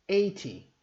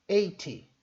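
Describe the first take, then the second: The two takes are said the same way.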